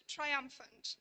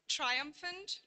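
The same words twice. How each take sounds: First: "triumphant" stressed on UM; "triumphant" as tri-UM-phant, falling at the end; stress shift demo. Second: "Triumphant" stressed on its first syllable, TRI; "Triumphant" as TRI-umphant, lifted at the end; stress shift demo. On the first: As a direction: put the main stress of "triumphant" on its middle syllable. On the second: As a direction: hit TRI at the start of "Triumphant". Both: Shown as a demonstration. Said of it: "exhibit variation in their primary stress".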